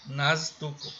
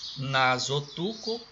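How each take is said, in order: First: It is said without a linking o vowel. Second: It is said with a linking o vowel. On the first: "Aqui poderia ser nastuco" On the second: "Nasotuco é a toalha de nariz"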